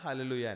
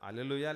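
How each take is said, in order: First: The word starts with an h sound. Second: The word starts with a plain vowel sound. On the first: "ఆ గాని హా గాని దేంతో ఒక దాంతో పలుకుతారు" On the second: "ఆ గాని హా గాని దేంతో ఒక దాంతో పలుకుతారు"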